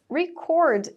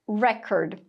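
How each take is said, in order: First: The stress is on the second syllable. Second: The stress is on the first syllable. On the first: It is a verb meaning to record or register. "a segunda sílaba aí sendo a tônica, o sentido é o verbo" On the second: It is a noun meaning a recording or a record. "com a pronúncia ali da primeira sílaba sendo a tônica"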